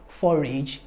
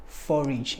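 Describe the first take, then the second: First: "forage" ending like the word "age"; wrong full-vowel ending. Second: Said in the usual way. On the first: Shown as a demonstration. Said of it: "it's, it's not". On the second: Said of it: "it's not forage or lineage".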